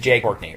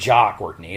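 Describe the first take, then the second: First: The first name rhymes with 'day'. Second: The first name is said with an 'ah' vowel. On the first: The speaker calls it right. "I'm pronouncing it Jay" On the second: The speaker calls it wrong. "It's not Ja"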